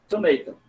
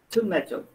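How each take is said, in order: First: It is said with an American accent. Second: It is said with a British accent. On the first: "Nos Estados Unidos vai falar tomato" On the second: "Já no Reino Unido, vai falar tomato"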